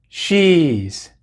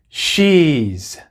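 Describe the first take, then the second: No difference in how they are said.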